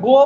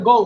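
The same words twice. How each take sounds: First: Said in the usual way. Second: গো with an "ou" glide at the end; foreign-style গো. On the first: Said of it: "শব্দটা গো না". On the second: Shown as a demonstration. Teacher showing students how foreigners say গো. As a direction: say গো as English speakers do, ending in ou. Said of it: "বিদেশিরা বলে গো".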